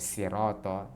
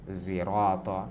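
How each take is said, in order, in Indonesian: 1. Kata ini diawali dengan bunyi s biasa. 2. Kata ini diawali dengan bunyi mirip z. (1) "huruf sin" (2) "seperti suara zai"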